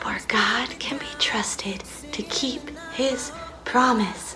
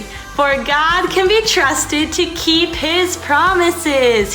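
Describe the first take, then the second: First: It is whispered very quietly. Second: It is said very loudly, almost yelled. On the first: "super quietly and we're gonna whisper it" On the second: "we're gonna do it nice and loud"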